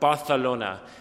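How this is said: The c is said with a th sound. "with a lisp. So instead of saying Barcelona, they say Barcelona"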